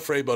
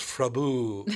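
First: The name ends with a clear 'butt' sound. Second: The name ends with an 'oo' sound, no t. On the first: The speaker calls it wrong. "It's not Freybutt" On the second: The speaker calls it right. "it's Frabu"

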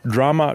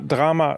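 First: It is said with an English pronunciation. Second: It is said with a German pronunciation.

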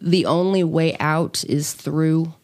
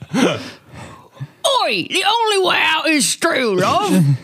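First: It is said in the speaker's normal voice. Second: It is said in a put-on Cockney accent.

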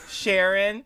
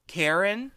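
First: The name begins with an sh sound. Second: The name begins with a k sound. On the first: The speaker calls it wrong. "for the longest time, I thought it was just Sharon" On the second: The speaker calls it right. "it turns out it's more like Karen"

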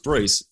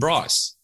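First: The vowel sounds like 'ee'. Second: The vowel sounds like 'eye'. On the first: The speaker calls it right. "I'm sure it's Brice" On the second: The speaker calls it wrong. "they called him Bryce"

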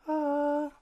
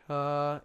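First: It is in a high falsetto voice. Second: It is in the normal chest voice.

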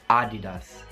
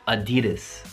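First: The stress is not on the second syllable. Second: The stress is on the second syllable. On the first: This is the Italian pronunciation. "in italiano dite Adidas" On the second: This is the American pronunciation. "in America la pronunciamo Adidas. Quindi mettiamo lo stress sul secondo sillabe"

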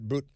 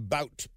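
First: The vowel rhymes with 'boot'. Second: The vowel rhymes with 'out'. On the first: "the commies, they pronounce it Boot" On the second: "I like to call him Bout"

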